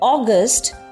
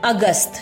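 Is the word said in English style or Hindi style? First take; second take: English style; Hindi style. First: It is said with English pronunciation. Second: It is said with Hindi pronunciation. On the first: "the ideal English pronunciation that I gave you earlier" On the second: "These are the changed versions of the pronunciation"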